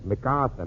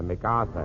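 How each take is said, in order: First: MacArthur said carefully, lower; correct pronunciation. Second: MacArthur again, lower and softer; repeated correction. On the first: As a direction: spell it out in sound, MacArthur. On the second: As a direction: patiently insist on MacArthur. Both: Shown as a demonstration. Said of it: "it is not Max Arthur".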